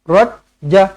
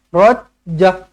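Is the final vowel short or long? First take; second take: short; short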